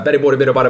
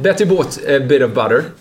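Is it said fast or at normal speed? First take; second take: fast; normal speed. First: It is said very fast, as a race. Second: It is said at a normal, careful speed.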